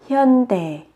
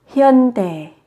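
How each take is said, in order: Both takes have the same delivery.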